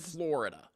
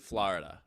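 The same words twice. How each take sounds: First: It is said with a general American pronunciation. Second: It is said with a New York pronunciation. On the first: "instead of" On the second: "I say Florida ... people in New York say Florida"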